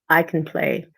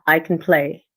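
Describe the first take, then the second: No difference in how they are said.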